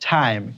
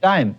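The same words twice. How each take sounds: First: The t has a strong puff of air. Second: The t is plain, with no puff. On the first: The speaker calls it right. "নো উচ্চারণটা কি হবে বলো টাইম" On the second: The speaker calls it wrong. "আমরা বলি টি I M এ টাইম"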